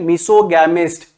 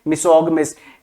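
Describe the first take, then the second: First: The middle syllable has an 'a' vowel as in cat. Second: The middle syllable has a short 'uh' vowel. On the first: The speaker calls it wrong. "ऐसे नहीं बोलना है" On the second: The speaker calls it right. "मिसोगमिस्ट बोलना है सबने"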